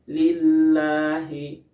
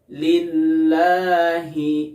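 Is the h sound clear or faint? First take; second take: faint; clear. First: The h sound is faint and unclear. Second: The h sound is clearly audible. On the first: The speaker calls it wrong. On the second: The speaker calls it right.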